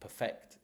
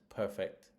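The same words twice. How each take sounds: First: The stress is on the second syllable. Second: The stress is on the first syllable. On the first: It is a verb. "Perfect is the verb" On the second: It is an adjective. "perfect is the is the adjective there"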